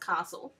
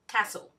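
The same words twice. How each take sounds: First: It uses the New South Wales pronunciation. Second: It uses the Victorian pronunciation. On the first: "people from New South Wales pronounce it as castle, and I tend to" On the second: "the Victorian pronunciation is castle"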